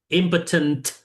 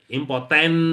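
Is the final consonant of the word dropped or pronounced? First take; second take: pronounced; dropped. First: The word ends with its final consonant sound. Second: The word ends without its final consonant sound. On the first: The speaker calls it right. "selesaikan sampai konsonan terakhir" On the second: The speaker calls it wrong. "kan biasanya kita ngomongnya impoten gitu ya. Nggak ada ujungnya tuh"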